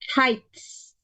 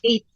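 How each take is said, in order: First: The word begins with a clear h sound. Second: The word begins without any h sound. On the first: The speaker calls it right. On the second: The speaker calls it wrong.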